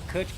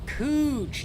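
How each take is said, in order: First: The vowel is short, like in 'cut'. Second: The vowel is long, like in 'boot'. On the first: The speaker calls it wrong. "I've been saying that wrong the whole time" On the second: The speaker calls it right. "Cooch, not Kutch"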